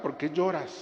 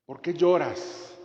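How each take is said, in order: First: Said in the usual way. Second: Slow, tender question; gentle Jesus question. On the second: Acted. Jesus gently asking Mary Magdalene, slow and tender. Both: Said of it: "las dos preguntas que hizo Jesús".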